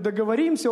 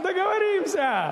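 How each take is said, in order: First: It is said quietly and timidly. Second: It is said loudly and joyfully. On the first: "так скромно, тихонько" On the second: "Он еще радостнее"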